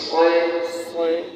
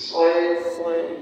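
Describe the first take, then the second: No difference in how they are said.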